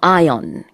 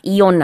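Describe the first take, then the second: First: The word begins with an 'eye' sound. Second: The word begins with an 'ee' sound. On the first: The speaker calls it right. "이온의 영어 발음은 iron입니다" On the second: The speaker calls it wrong. "이온 아니고요"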